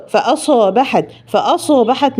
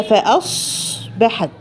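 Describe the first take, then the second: First: فأصبحت with a bounce on the ص; wrong qalqala. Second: فأصبحت slow, the ص held without echo; correct reading. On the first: Teacher imitating a mistake. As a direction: echo the ص in فأصبحت. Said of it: "ما ينفعش أقلقل الصاد". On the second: Teacher modelling the correct recitation. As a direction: say فأصبحت slowly and smoothly. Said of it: "هي". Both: Shown as a demonstration.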